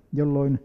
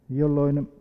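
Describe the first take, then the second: No difference in how they are said.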